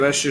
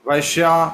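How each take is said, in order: First: The word ends without a final vowel. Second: The word ends with an added final 'a' vowel. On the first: The speaker calls it right. "जैसे बोलते हैं ना" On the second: The speaker calls it wrong. "वो English में बोलते हैं"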